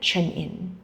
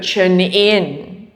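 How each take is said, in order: First: The voice falls at the end, like a statement. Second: The voice rises at the end, like a question. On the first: It is an instruction, not a request. The speaker calls it right. "a correction is just a statement" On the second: It sounds like asking rather than telling. The speaker calls it wrong. "You don't go"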